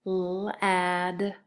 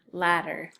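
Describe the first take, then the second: First: L-ad-er with a long l, then "ad", then "er"; L-ad-er in separated sounds; sounding out. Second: Said in the usual way. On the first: Shown as a demonstration. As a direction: sound out L-ad-er piece by piece. Teacher sounds out word for spelling.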